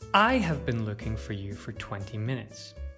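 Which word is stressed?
I. The stress is on the word I. It was me, not someone else, who was looking. "If we stress I"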